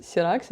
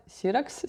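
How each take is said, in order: First: "Сіракс" stressed on РАКС; stress on second syllable. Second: "Сіракс" stressed on СІ; stress on first syllable. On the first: Unsure reader trying "Сіракс" with stress on РАКС. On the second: Unsure reader trying "Сіракс" with stress on СІ. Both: Shown as a demonstration. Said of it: "як правильно наголос".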